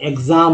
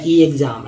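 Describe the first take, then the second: First: एग्जाम starting with short "eg", one word; short initial vowel. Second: ई एग्जाम with a long "ee" before "egzam"; separate letter-name E. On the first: Teacher gives the accepted reading, short "eg" start. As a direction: say एग्जाम as "eg-zaam". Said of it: "एग्जाम बोलते हैं". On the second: Teacher shows a mistaken reading, separate long E first. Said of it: "इस तरह से नहीं बोलते हैं". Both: Shown as a demonstration.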